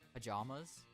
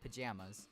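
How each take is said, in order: First: It is said with a British pronunciation. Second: It is said with an American pronunciation. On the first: "In Europe, or just in Britain, they say pa- pajamas" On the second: "We say pajamas"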